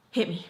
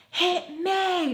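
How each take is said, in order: First: Said in the usual way. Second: High, drawn-out mock scream; retold screaming. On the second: Friend threatens a punch, imitated high scream. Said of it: "just kept screaming at each other".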